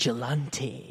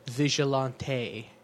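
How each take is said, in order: First: It is said with a plain English accent. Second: It is said with a French accent.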